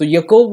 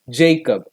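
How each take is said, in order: First: The name begins with a y sound. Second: The name begins with a j sound. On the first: This is the original form of the name. "what is the true name of Jacob? ... The letter J stands for Y sound" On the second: This is the English form of the name. "anglified into"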